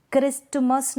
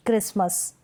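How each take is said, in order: First: क्रिस्टमस with t before the m; T sounded. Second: क्रिसमस with no t; silent T. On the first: Teacher showing the misreading, क्रिस्टमस with t sounded. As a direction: say क्रिस्टमस as "kris-tu-mas". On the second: Teacher correcting the misreading, क्रिसमस without t. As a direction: say क्रिसमस as "kris-mas". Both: Shown as a demonstration. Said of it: "नहीं पढ़ेंगे".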